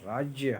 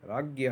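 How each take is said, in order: First: The word has the pure, traditional pronunciation. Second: The word has the common school-style pronunciation. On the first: The speaker calls it right. "शुद्ध उच्चारण जो है वह राज्य है" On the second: The speaker calls it wrong. "यानी राज्य ही पढ़ सकते हो, लेकिन ये स्कूल टाइम में पढ़ाते हैं"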